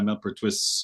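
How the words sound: The name is pronounced the German way. "German going on there"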